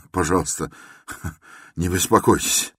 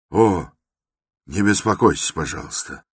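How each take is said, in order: First: Breaking into laughter mid-phrase; laughing. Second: A sudden raised exclamation, then dropping off; exclaiming. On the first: Raskolnikov to Porfiry, laughing it off. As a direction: say it through a fit of nervous laughter. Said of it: "и вдруг захохотал". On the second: Raskolnikov brushing off Porfiry's concern, exclaiming. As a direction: cry out to wave the concern away. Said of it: "вскричал Раскольников". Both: A narrator's reading.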